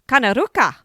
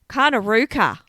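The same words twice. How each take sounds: First: The name is said with an Italian accent. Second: The name is said in a plain accent. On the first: The speaker calls it wrong. "I don't know why I said that in Italian accent" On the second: The speaker calls it right. "Maybe that's better"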